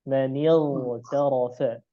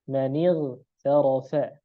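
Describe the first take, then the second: First: The gh sound is pronounced thick. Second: The gh sound is pronounced thin. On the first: This follows the Syrian reading tradition. "Dibaca tebal ... Dia tebal" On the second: This follows the Egyptian reading tradition. "huruf kha dan ghain itu dikeluarkan ... dari rahang tipis"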